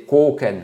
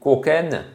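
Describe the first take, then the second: First: The first vowel is held long. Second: The first vowel is kept short. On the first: It names the strike with the hard edge of the hand. The speaker calls it right. "Vous voyez, c'est long" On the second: It names a strike with the hollowed hand. The speaker calls it wrong. "Si vous dites koken, non"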